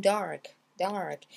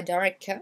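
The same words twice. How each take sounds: First: DARK as one smooth beat, falling; one syllable. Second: DARK with a popped extra "kuh" at the end; over-hit K. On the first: Teacher models DARK for learners as one syllable. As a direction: keep dark whole, K light. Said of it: "un mot en une syllabe". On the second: Teacher shows learners the wrong DARK, K overdone. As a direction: split dark toward "dar-kuh". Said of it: "c'est pas dark". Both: Shown as a demonstration.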